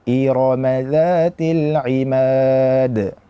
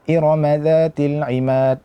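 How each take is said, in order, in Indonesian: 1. Vokal pada Irama dibaca penuh panjangnya. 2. Vokal pada Irama dipotong pendek. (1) "Namun yang benar adalah" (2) "Ketika kita tidak menyempurnakan harakat pada huruf-huruf yang hidup"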